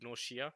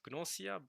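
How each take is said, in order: First: The middle consonant is an sh sound. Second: The middle consonant is a plain s sound. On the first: The speaker calls it right. "pretty sure in Japanese it's pronounced" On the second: The speaker calls it wrong. "which you might think is this supposed to be pronounced"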